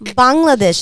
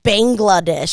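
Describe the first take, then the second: First: It is said the way native speakers say it. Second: It is said the way English speakers say it. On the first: This is the country's real name. The speaker calls it right. "I am from Bangladesh" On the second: This is not the country's real name. The speaker calls it wrong. "not Bangladesh"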